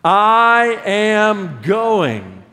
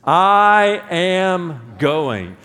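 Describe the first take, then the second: First: Very slow, loud and higher; shouted declaration. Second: Slow, loud declaration; I am going, drawn out. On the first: Pastor rallying the church to shout it, slow and loud. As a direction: shout it so the ocean front hears. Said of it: "Say it like you really mean it". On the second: Pastor leading the congregation, slow loud declaration. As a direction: stretch each word out as a vow. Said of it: "Say that with me". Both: Shown as a demonstration.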